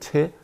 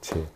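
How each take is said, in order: First: It begins with an aspirated ch sound. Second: It begins with a plain unaspirated j sound. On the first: This is the character's original reading. "원래는 체" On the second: This is the reading used in Buddhism. "근데 우리 불교에서는 제라고 하죠"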